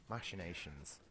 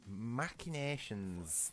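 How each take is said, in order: First: The first syllable sounds like 'mash'. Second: The first syllable has a hard, harsh sound. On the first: "that does make it sound like you say mash" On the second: "That sounds too harsh to me"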